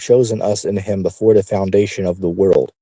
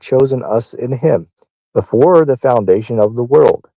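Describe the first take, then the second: First: It is read at a normal, quicker pace. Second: It is read at a slower, deliberate pace.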